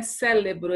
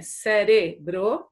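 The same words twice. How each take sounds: First: "cérebro" misspoken as "célebro"; L sound in CÉREBRO. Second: "cérebro" slowly, syllable by syllable, with tapped r; R sound in CÉREBRO. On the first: Teacher showing pupils the mistake, "cérebro" said with an l. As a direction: swap the first r of "cérebro" for an l. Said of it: "não é cérebro". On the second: Teacher correcting pupils, "cérebro" slow with a clear r. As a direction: spell out "cé-re-bro" slowly. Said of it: "É cérebro". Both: Shown as a demonstration.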